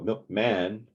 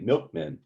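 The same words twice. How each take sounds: First: The stress is on the second syllable. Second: The stress is on the first syllable. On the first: The speaker calls it wrong. "you wouldn't go milkman" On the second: The speaker calls it right. "you would tend to say milkman"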